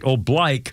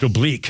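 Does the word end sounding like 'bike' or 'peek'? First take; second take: bike; peek. First: The last syllable rhymes with bike. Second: The last syllable rhymes with peek. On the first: This is the marching-command pronunciation in the Marine Corps. "But in the Marine Corps, when you're marching, it's right oblique" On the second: This is the usual pronunciation outside the military. "which is pronounced oblique in many other places"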